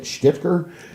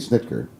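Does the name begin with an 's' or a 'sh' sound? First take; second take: sh; s. First: The name begins with a 'sh' sound. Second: The name begins with a plain 's' sound. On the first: The speaker calls it wrong. "I don't understand how you get it wrong" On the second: The speaker calls it right. "technically Snitker"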